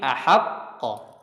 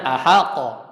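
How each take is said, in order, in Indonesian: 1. Ada jeda singkat sebelum pelepasan akhir. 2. Suku kata terakhir dilepas tanpa jeda. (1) "ada jeda sedikit" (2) "jangan ahaqqo"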